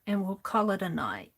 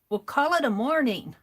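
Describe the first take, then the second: First: Said in the usual way. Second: Morning stressed, a bit higher and louder; playful correction. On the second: Shown as a demonstration. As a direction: swap in morning with a wink.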